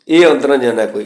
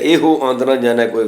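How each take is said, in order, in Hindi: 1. पहले शब्द के अंत में अंतिम 'o' की ध्वनि नहीं है। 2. पहले शब्द के अंत में अंतिम 'o' की ध्वनि है। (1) "इतने ਇਹ अंत पढ़ना ही ठीक है" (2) "गलत है"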